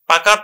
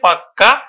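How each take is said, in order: First: The middle k sound is short and single. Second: The middle k sound is long and doubled. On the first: "পাকা থেকে" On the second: "এটাকে আমরা জোর দিয়ে বলবো পাক্কা কথা"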